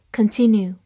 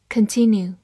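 No difference in how they are said.

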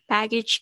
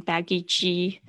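First: "Baggage claim" with a very light -ge ending; light final G. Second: "baggage" wrongly ending in a full "jee" syllable; over-heavy final G. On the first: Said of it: "很轻的". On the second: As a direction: mimic students saying "baggage" as baggy-jee. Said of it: "这个G不要念得太重". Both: Shown as a demonstration.

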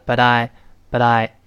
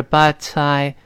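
First: "but I" run together, t softened towards d; voiced-T BUT I. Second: "but I" joined up with a crisp t; linked BUT I. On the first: Teacher demonstrates voicing for students, "but I" with d-like t. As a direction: link "but I" as "bud-eye". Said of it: "读快了一浊化". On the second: Teacher shows linking before voicing, "but I" with clear t. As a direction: link "but I", keeping the t voiceless. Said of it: "连到一块儿是but I". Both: Shown as a demonstration.

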